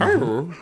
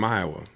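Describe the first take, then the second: First: It is said in a puzzled Scooby-Doo voice. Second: It is said in the speaker's normal voice.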